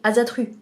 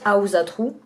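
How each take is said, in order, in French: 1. Il se prononce à la française. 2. Il se prononce selon la prononciation nordique d'origine. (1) "avec notre langue originelle, on aurait dit Azatru" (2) "ça se prononce Ausatru"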